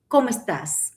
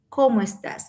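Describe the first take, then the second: First: The two words are joined together. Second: The same.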